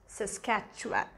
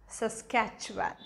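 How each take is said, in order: No difference in how they are said.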